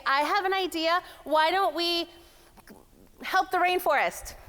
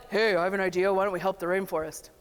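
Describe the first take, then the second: First: High-pitched boardroom suggestion; high female pitch. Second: Low mock male voice; Bob. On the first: Acted. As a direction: pitch the idea up high, tentatively paced. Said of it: "up here on the high sound". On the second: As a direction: imitate a man pitching an idea, voice dropped. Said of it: "then Bob's like".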